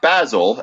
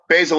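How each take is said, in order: First: The word is said with a British pronunciation. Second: The word is said with an American pronunciation. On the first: "as they say in in in England" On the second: "as we say in the U S"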